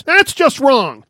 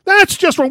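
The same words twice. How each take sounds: First: Slow, high, loud offended protest; indignant, slow disapproval. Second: Much higher, loud indignant repeat; shocked rebuke, pitched up high; offended. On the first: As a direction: drag it out, scandalised. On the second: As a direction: push it up into outraged disbelief. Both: Retold or imitated. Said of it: "did he take offense".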